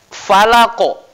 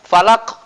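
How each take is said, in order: First: The final consonant ends with a strong echoing bounce. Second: The final consonant ends with little or no bounce. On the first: The speaker calls it right. "dipantulkan menjadi qalqalah kubra" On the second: The speaker calls it wrong. "Jadi salah kalau dibaca falaq"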